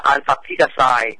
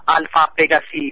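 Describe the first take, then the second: First: Alpha Pegasi ending in "sigh"; English-style Alpha Pegasi; English pronunciation. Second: Alpha Pegasi ending in "see"; Latin-style pronunciation. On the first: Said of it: "có nghĩa là tiếng Anh đọc là". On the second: First take before English reading. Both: Shown as a demonstration.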